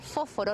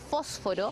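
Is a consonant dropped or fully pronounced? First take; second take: dropped; full. First: One consonant is swallowed in the word. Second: Every consonant in the word is pronounced. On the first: "nos comemos muchas veces consonantes" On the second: "no fósforo"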